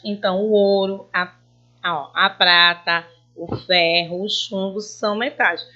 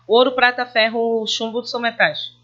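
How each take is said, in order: First: A clear pause after each metal in the list; pauses between items. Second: \"ouro, prata, ferro, chumbo\" run together with no comma pauses; no pauses, flat. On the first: Teacher showing students the pause at each comma. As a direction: read the list pausing at every comma, \"o ouro, a prata, o ferro, o chumbo\". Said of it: "eu pausei ao falar que o ouro". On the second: Teacher showing students the wrong reading without pauses. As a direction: rush the list flat, without intonation. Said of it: "Ia ficar sem nexo, sem entonação". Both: Shown as a demonstration.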